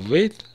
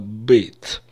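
First: The word starts with a V sound. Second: The word starts with a B sound. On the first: The speaker calls it wrong. "Не «вейт»" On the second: The speaker calls it right. "а «бейт»"

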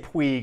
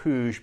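First: The surname is given a non-native pronunciation. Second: The surname is given its native pronunciation. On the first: The speaker calls it wrong. "I'm going to say Puig and not Puig because he doesn't even deserve to have his last name pronounced correctly" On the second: The speaker calls it right. "and not Puig"

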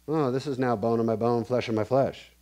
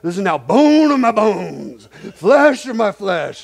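First: It is said flatly, without excitement. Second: It is said with over-the-top excitement.

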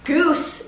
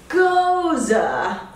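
First: It is one syllable with an oo vowel. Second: It is two syllables with an oh vowel. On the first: The speaker calls it wrong. "goose is what I originally called it" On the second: The speaker calls it right. "with the emphasis on the O and the E making an sound, like Rosa"

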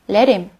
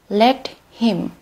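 First: The h sound in him is dropped. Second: The h sound in him is pronounced.

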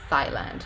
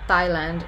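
First: It begins with a hissing 'th' sound as in 'thin'. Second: It begins with a tongue-on-teeth 't' and no puff of air. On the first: "he produced a voiceless dental fricative instead" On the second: "Thailand is without any aspiration"

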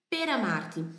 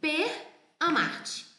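First: The r runs straight into the following vowel. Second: The r stays apart from the following vowel. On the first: The speaker calls it right. "Eu digo nonó l'età per amarti" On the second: The speaker calls it wrong. "Eu iria lê-las assim, porque é o português"

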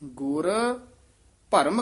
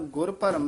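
First: There is a short pause between the words. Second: The two words run together without a pause. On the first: The speaker calls it right. "ਗੁਰ ਦੇ ਗੁਰ ਤੋਂ ਬਾਅਦ ਵੀ ਥੋੜਾ ਜਿਹਾ ਠਹਿਰਾ ਦੇਣਾ" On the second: The speaker calls it wrong. "ਗੁਰ ਭਰਮ ਨਹੀਂ ਕਹਿ ਦੇਣਾ"

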